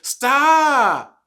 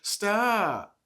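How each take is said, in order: First: It is said in a sharper, more upset tone. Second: It is said in a milder, calmer tone. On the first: The child is becoming more seriously upset. "when that tone changes to stop, now that's another level" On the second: The child is mildly bothered. "that's one level"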